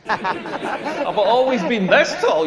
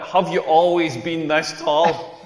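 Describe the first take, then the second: First: Slow mock-disbelieving repeat; incredulous echo. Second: Slow, understated imitation of a stranger; lightly voiced curious question; nosy question. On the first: Comedian answering the stranger's silly question, incredulous. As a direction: throw the question back, drawn out. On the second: Girl in the queue quizzing a tall man, nosy.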